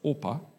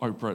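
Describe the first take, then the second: First: The r sound comes before the p. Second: The r sound comes after the p. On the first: The speaker calls it right. "it's Orpah" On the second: The speaker calls it wrong. "but it's not Oprah"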